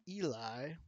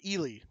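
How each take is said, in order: First: The name is said like 'Eli'. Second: The name is said like 'Ely'. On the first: The speaker calls it wrong. "I've pronounced this Eli forever, and that is cor- incorrect" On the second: The speaker calls it right. "It's Ely"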